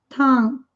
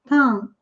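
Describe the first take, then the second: No difference in how they are said.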